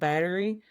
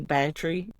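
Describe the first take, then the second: First: The T in the middle is soft and flapped. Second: The T in the middle is crisply pronounced. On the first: This is the usual everyday way to say it. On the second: This is how certain local speakers say it.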